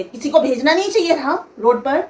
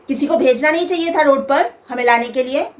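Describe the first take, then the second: First: Lightly imitated haughty reproach; quoting the rude mother-in-law again, mild mock attitude; showing attitude. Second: A hint of a curt, haughty scolding; mother-in-law greeting her future daughter-in-law with a snide, mildly imitated reproach; rude mother-in-law tone. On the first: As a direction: toss the line off with a touch of arrogance. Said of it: "नहीं, तेवर दिखा के". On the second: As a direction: mimic the mother-in-law's sharp attitude, mildly. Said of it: "ये tone था मेरी सास का".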